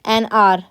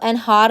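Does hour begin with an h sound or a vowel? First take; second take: vowel; h sound. First: Hour begins directly with a vowel. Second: Hour begins with an h sound. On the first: The speaker calls it right. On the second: The speaker calls it wrong.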